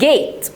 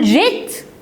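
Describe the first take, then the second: First: It begins with a hard g sound. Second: It begins with a soft j sound. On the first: The speaker calls it right. "انطقها ج عاديه" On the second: The speaker calls it wrong. "هقول جيت؟ لا"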